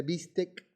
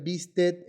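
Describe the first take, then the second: First: Said in the usual way. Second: "bistec" ending in a T sound; mispronounced "bistec"; wrong pronunciation. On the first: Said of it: "en vez de bistec". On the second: Shown as a demonstration. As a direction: end "bistec" with T instead of K. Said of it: "pronunciar bistec en vez de bistec".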